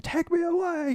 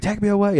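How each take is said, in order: First: Soaring falsetto cry of the line; high falsetto call, echoing; echoey high wail. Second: High sung-out cry; high wailing rock yell. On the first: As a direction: sing it out high like a rock finale. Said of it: "it's all echoed". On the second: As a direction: belt it high like a stage exit. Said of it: "He was like". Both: Retold or imitated.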